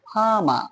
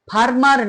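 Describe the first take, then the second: First: The r sounds are silent in the word. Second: The r sounds are pronounced in the word. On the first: The speaker calls it right. "দুটো আর এর কোনো আরই উচ্চারণ হলো না" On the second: The speaker calls it wrong. "এখানে ফার্মার না হয়ে কি হলো"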